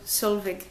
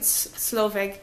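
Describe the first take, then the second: First: The name begins with the sounds 'sol'. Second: The name begins with the sounds 'slo'. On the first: The speaker calls it right. "but her name is Sol Solveig" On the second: The speaker calls it wrong. "I've been pronouncing it Sloveg"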